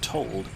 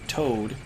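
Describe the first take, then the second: First: The word is said with a clear L sound. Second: The word is said without any L sound.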